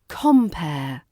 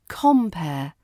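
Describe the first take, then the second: The two takes are said the same way.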